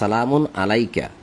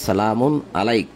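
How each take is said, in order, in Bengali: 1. শেষ শব্দটি একটি শেষ স্বরবর্ণ দিয়ে শেষ হয়। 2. শেষ শব্দটি তার শেষ স্বরবর্ণ ছাড়া শেষ হয়। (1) "যদি একসাথে পড়ে যাওয়া হয় তাহলে" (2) "যদি আপনি এখানে থেমে যান তাহলে হয়"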